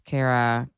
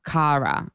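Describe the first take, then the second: First: Kara said with an "air" first vowel; Kara the American way, like "care-uh"; American pronunciation. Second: Kara said with an open "ah" first vowel; Kara the Australian way, like "car-uh"; Australian pronunciation. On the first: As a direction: say Kara as KAIR-uh. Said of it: "like, so fucking American". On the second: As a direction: say Kara as KAH-ruh. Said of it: "She's Australian". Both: Shown as a demonstration.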